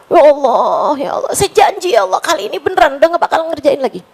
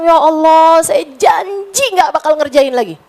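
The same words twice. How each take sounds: First: Quick, rushed mock-sobbing plea; retold tearful pleading. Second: Said in the usual way. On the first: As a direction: rush the promise as if weeping, lightly. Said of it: "Nangis lagi". (doa sambil menangis yang ditirukan, cepat) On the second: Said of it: "Saat taubat saya bilang".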